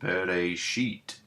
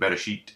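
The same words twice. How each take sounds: First: The word is said slowly and carefully. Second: The word is said fast and run together.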